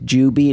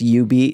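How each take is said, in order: First: The name begins with a 'j' sound. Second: The name begins with a 'y' sound. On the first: This is how the English lettering reads. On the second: This follows the Japanese pronunciation. "because of the Japanese pronunciation, it's U-Beat"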